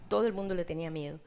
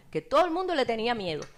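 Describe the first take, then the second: First: Said in the usual way. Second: Stressed "todo el mundo le tenía miedo"; emphatic. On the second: Real, not acted. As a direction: lean hard on "todo el mundo". Repeated for emphasis.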